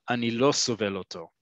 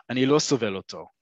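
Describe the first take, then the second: The two takes are said the same way.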